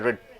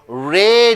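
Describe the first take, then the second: First: The vowel is cut short. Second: The vowel is held long. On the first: The speaker calls it wrong. "You don't say red" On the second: The speaker calls it right. "red you say"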